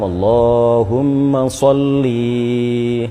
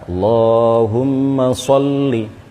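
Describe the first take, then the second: First: The final vowel of sholli is drawn out long. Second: The final vowel of sholli is short, then a stop. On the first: The speaker calls it wrong. "jangan sampai diseret kemudian linya sampai dibaca panjang" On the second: The speaker calls it right. "yang benar Allahumma sholli, ya, berhenti dulu"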